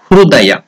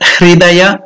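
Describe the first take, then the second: First: The vowel after hr is a clear u. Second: The vowel after hr is a clear i. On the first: "not even Hrudaya" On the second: "Not even Hridaya"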